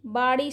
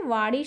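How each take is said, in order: First: बाड़ी opened with b; wrong pronunciation. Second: वाड़ी opened with v; correct pronunciation. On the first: Teacher showing students the error, बाड़ी with b. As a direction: close the lips for b in बाड़ी. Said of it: "शब्द गलत है". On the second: Teacher giving students the right form, वाड़ी with v. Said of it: "शब्द सही है". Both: Shown as a demonstration.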